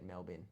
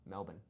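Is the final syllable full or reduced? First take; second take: full; reduced. First: The final syllable keeps a full vowel. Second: The final syllable has no vowel before n. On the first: This is how visiting commentators say it. The speaker calls it wrong. "They say it Melbourne" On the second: This is how locals say it. The speaker calls it right. "M E L B N, no vowel"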